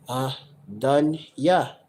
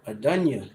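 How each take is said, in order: First: "Adunya" drawn out slowly, one syllable at a time. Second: Said in the usual way. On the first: Shown as a demonstration. Teacher sounding out "Adunya" for viewers, slow and syllable by syllable. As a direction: break "Adunya" into three slow, separate syllables. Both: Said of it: "more passionate form of saying Lord".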